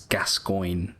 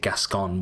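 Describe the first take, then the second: First: The name ends with a 'coyne' sound. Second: The name ends with a plain 'con' sound. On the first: This is the name's proper pronunciation. The speaker calls it right. "but it is Gascoigne, Irish name" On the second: This is how some other speakers say it. The speaker calls it wrong. "they might even say Gascon, which is close"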